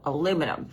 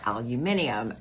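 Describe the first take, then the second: First: It is said the American way. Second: It is said the British way.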